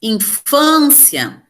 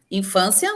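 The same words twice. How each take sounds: First: INFÂNCIA very slow, with a long strong FÂN; stress on penultimate syllable. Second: Said in the usual way. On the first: Shown as a demonstration. Teacher showing the class the tonic syllable, FÂN stressed. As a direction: stretch and punch the middle syllable of Infância. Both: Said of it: "penúltima sílaba tônica".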